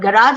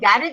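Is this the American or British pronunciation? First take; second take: American; British. First: It is said with an American pronunciation. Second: It is said with a British pronunciation. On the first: "garage is the American one" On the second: "garage is the English one"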